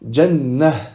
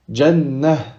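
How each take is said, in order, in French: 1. La dernière lettre se prononce comme un h. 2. La dernière lettre se prononce comme un h.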